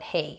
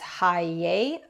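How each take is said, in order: First: The name is given a North American pronunciation. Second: The name is given a German pronunciation. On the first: "North Americans, we tend to call it Hey" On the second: "I believe the German pronunciation is Haye"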